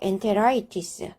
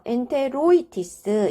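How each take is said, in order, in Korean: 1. -itis 앞의 o 모음은 빠집니다. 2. -itis 앞의 o 모음은 남습니다. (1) "앞에 있는 아이는 생략할 수 있는 거죠. 그래서 엔테라이티스 이렇게 됩니다" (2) "이렇게 발음을 해야 되는데"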